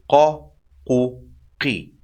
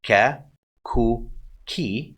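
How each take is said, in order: First: Emphatic q from the back in "qa, qu, qi"; heavy deep qaf. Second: Light k in "Ka, ku, ki"; soft kaf. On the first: Teacher compares qaf to kaf, deep emphatic q. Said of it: "how heavy and emphatic and deep". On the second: Teacher shows learners the kaf, soft k sound. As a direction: say "Ka, ku, ki" with a soft front k. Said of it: "The kaf is soft". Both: Shown as a demonstration.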